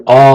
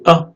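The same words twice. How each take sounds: First: "a" drawn out as a full long vowel. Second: "a" clipped short and light; short vowel a. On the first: Teacher showing the long Arabic vowel, held long. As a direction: hold the "a" long and marked. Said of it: "voyelles longues ... de manière un peu plus allégée". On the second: Teacher showing the short Arabic vowel, said short and light. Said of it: "de manière un peu plus allégée". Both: Shown as a demonstration.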